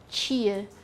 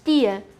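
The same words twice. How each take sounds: First: The t is pronounced with a 'ch' hiss. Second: The t is pronounced as a plain 't'. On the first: The speaker's own region says it this way. "Eu falo tia" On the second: Some other regions of Brazil say it this way. "sem esse chiado"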